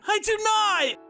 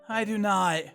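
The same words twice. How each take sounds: First: It is shouted loudly. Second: It is said quietly.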